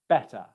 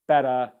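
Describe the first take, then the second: First: The middle consonant is a clear T. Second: The middle consonant sounds like a D. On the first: The speaker calls it right. "instead of" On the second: The speaker calls it wrong. "where they drop the T's into a D sound"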